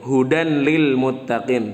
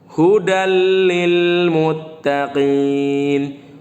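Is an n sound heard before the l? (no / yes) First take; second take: yes; no. First: The n is pronounced separately before the l. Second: The n merges into a doubled l sound. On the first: The speaker calls it wrong. "Tidak dibaca hudan lil muttaqin" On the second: The speaker calls it right. "dimasukkan tanwinnya jadi dibaca huruf setelahnya yaitu huruf lam"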